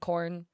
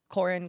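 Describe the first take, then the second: First: The name is said quickly as one syllable. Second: The name is said fully with two syllables.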